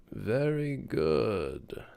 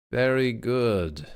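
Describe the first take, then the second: First: Slow and softer, a different voice. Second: Said in the usual way. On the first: Shown as a demonstration. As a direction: drag out the praise softly. Repeating praise in different voices.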